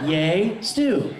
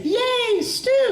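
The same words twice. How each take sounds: First: Said in the usual way. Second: Put-on very high childlike cheer; high, gleeful little cheer. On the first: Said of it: "what it says right there on the script". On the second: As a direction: squeal it with delight. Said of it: "She was gonna say".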